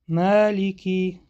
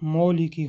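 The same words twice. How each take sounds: First: The long a vowel is tilted toward e. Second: The long a vowel is plain and open. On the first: The speaker calls it right. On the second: The speaker calls it wrong.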